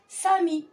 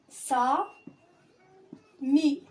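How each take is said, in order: First: The two syllables are joined smoothly. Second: The two syllables are said apart. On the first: "أجمع les deux syllabes فأقرأ sami" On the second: "هذه الكلمة تتكون من جزئين"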